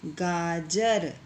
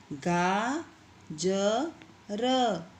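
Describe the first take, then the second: First: Said in the usual way. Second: गाजर stretched very slowly, syllable by syllable. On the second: Shown as a demonstration. Teacher to pupils, sounding out गाजर very slowly. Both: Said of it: "इसी तरह से ये आगे के जो शब्द हैं".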